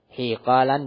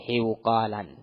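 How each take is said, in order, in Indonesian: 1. Bunyi luncuran di suku kata pertama adalah 'y'. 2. Bunyi luncuran di suku kata pertama adalah 'w'. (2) "bukan hiuqalan"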